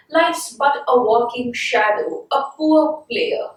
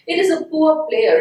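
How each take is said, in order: First: Slow poetry recitation. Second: Said in the usual way. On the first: Shown as a demonstration. Teacher reciting Macbeth to the class, slow and measured. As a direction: read the line slowly, like verse. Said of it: "Then he says". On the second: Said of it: "It seems as if human life".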